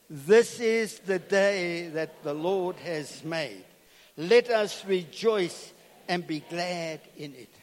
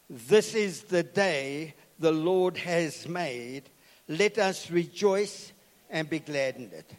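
First: It is said joyfully, with conviction. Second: It is said flatly, without joy.

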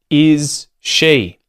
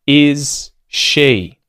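The two takes are said the same way.

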